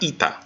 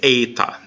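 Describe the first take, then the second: First: The first vowel is a long 'ee' sound. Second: The first vowel is a long 'ay' sound. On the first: The speaker calls it wrong. "not ita" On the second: The speaker calls it right. "It's eta"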